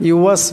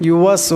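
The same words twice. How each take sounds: Both takes have the same delivery.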